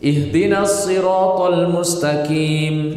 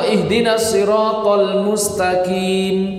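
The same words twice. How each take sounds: First: The emphatic letter is thinned to a light k. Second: The emphatic letter keeps a heavy, thick sound.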